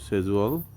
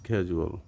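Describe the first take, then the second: First: It is said with a British accent. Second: It is said with an American accent. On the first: "সেজুয়াল হচ্ছে British" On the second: "American উচ্চারণ"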